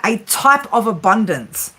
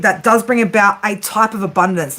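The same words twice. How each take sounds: First: "a type of abundance" slowed, type stressed, falling; slow, weighted phrase. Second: Said in the usual way. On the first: Shown as a demonstration. Reader telling viewers what abundance means, slow stressed phrase. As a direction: lean on "type" and draw the phrase out. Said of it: "Now, I'm gonna say it like that". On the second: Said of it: "I'm gonna say it like that".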